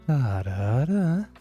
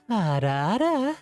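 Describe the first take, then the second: First: It is said in a manly voice. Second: It is said in a femboy voice.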